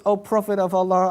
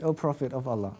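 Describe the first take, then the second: First: Said in the usual way. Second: Soft, low plea. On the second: Retold or imitated. Sawad pleads with the Prophet.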